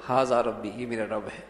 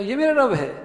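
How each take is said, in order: First: یہ میرا رب ہے low and soft, as information; subdued declarative یہ میرا رب ہے; statement tone. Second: High-pitched disbelieving query; astonished, rejecting tone; incredulous question. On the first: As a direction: state ھذا ربی, falling, no question. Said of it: "خبری ہیں". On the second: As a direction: ask it as if it could never be so. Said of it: "لہجے کے لحاظ سے انکار". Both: Shown as a demonstration.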